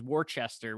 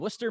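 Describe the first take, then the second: First: The name is said as read from spelling. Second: The name is said the way locals say it. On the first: The speaker calls it wrong. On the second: The speaker calls it right.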